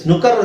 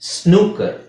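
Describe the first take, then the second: First: The first vowel is short. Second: The first vowel is long. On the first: The speaker calls it wrong. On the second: The speaker calls it right.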